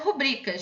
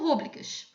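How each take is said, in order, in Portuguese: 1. A tônica cai na segunda sílaba. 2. A tônica cai na primeira sílaba. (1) "a pronúncia certa é rubricas" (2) "Muita gente conhece por rúbricas. Só que ela não é acentuada"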